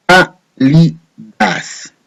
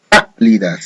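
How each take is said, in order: First: Cálidas split very slowly as cá-li-das; syllabified. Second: Said in the usual way. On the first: Shown as a demonstration. Teacher syllabifying the last word for students, very slow. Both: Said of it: "Lo vamos a silabear".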